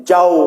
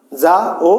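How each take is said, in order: First: যাও as one gliding syllable; joined diphthong. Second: যা and ও as two separate syllables; split vowels. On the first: Teacher showing students the right reading, vowels joined. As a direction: run আ straight into ও in যাও. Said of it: "উচ্চারণ করতে হবে এক নিঃশ্বাসে". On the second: Teacher showing students the wrong reading, vowels split. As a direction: pull ও away from যা. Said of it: "বলতে পারবো না". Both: Shown as a demonstration.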